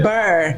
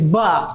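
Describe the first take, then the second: First: The syllable ends with a clear r sound. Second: The syllable ends without any r sound. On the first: The speaker calls it right. "not burr" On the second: The speaker calls it wrong. "he can't pronounce the E Rs. Everything is buh"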